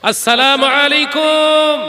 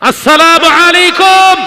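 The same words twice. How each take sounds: First: The greeting is said louder than normal. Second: The greeting is said at its loudest. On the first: "আগের থেকে আরেকটু চওড়া উঁচু আওয়াজ করে সালাম দাও" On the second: "দ্বিতীয়বারের থেকে তৃতীয়বার আরো বুলন্দ করো, আরো জোরে সালাম দাও"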